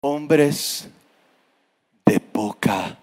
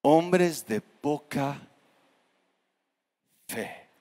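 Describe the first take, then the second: First: Hombres de poca breathed in a soft whisper; wrong soft take. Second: Hombres de poca fe drawn out very slowly, fe fading away; slow solemn rebuke. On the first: Preacher shows how Jesus did not say it, in a whisper. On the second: Jesus gently rebukes his frightened disciples, slow and solemn. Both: Shown as a demonstration. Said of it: "no les dijo que poca".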